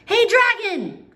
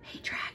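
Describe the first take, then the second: First: It is shouted very loudly. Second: It is whispered very softly.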